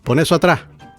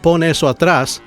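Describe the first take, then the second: First: The final s of atrás is dropped. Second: The final s of atrás is sounded. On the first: It sounds like a native speaker. "a native speaker might say" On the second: It sounds like classroom Spanish. "like you're in Spanish class"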